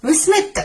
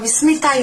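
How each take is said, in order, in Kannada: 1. ಹೆಸರು ಕೊನೆಯ ವ್ಯಂಜನದಲ್ಲಿ ಚುರುಕಾಗಿ ಮುಗಿಯುತ್ತದೆ. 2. ಹೆಸರು ಕೊನೆಯಲ್ಲಿ ಸ್ವರ ಶಬ್ದದಲ್ಲಿ ಮುಗಿಯುತ್ತದೆ. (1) "ಈ ತರ ಲೆಟರ್ ಕಟ್ ಆದ್ರೆ ಟಿ ಮಾತ್ರ" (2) "ಏನಾದ್ರೂ ಅದು ಕಂಟಿನ್ಯೂ ಆಗ್ತಾ ಇದೆ"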